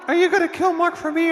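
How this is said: It is said in an imitated woman's voice. The speaker calls it right.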